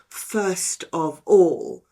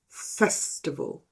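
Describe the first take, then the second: First: The words are said as separate words. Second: The words are merged into one word.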